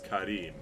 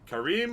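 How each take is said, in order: First: The r is a quick tongue-flick tap. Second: The r is a plain English r.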